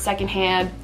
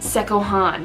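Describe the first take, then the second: First: The word is said with its 'nd' sounds kept. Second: The word is said with its 'nd' sounds dropped. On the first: The speaker calls it wrong. "you would think that this is pronounced secondhand" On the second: The speaker calls it right. "This is actually pronounced Sekohan"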